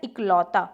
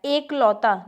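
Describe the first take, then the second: First: इकलौता starting with short "i"; correct form. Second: एकलौता starting with long "e"; incorrect form. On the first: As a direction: say इकलौता as "ik-lauta". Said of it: "क्या होता है?". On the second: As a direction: say एकलौता as "ek-lauta". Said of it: "नहीं होता". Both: Shown as a demonstration.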